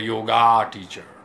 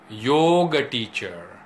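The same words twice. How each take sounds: First: The final vowel of yoga is said full. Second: The final vowel of yoga is cut short. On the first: The speaker calls it wrong. "not a yoga teacher" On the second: The speaker calls it right. "I'm a yoga teacher"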